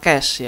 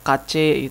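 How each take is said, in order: First: It is said as one syllable, like cash. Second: It is said with two syllables, ka-che. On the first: The speaker calls it right. "Yang benar adalah cache ya. Bilangnya sama kayak cash" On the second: The speaker calls it wrong. "ada yang sebutnya cache ya atau kace gitu"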